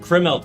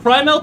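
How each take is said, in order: First: The first syllable rhymes with 'rim'. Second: The first syllable rhymes with 'cry'. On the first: The speaker calls it wrong. "my instinct is to call it Crimelt" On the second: The speaker calls it right. "I'm pretty sure it's Crymelt"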